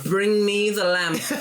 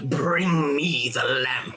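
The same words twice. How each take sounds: First: The voice is high-pitched and whiny. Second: The voice is deep and menacing. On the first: The speaker calls it wrong. "super whiny, high pitched voice" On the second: The speaker calls it right. "you get the original Jafar of"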